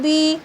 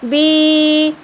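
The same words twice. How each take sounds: First: The vowel is short and quick. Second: The vowel is stretched out long. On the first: The speaker calls it right. "जल्दी पढ़ना है" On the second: The speaker calls it wrong. "ऐसे नहीं पढ़ना है बी ती, इस तरह इस तरीके से खींच कर नहीं पढ़ना है"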